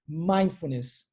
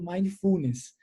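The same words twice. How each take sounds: First: The stress falls on the first syllable. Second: The stress falls on a later syllable. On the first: The speaker calls it right. "a sílaba tônica está na primeira sílaba" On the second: The speaker calls it wrong. "Eu ouço muito isso e é muito, muito ruim"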